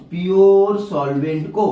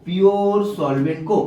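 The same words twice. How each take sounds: First: pure solvent को said slowly with weight on pure; slow emphasis. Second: Said in the usual way. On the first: Shown as a demonstration. Teacher drilling the membrane rule for students, slow and stressed. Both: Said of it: "सिर्फ किसको allow करता है".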